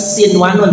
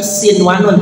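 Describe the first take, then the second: First: The n is pronounced clearly before the w. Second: The same.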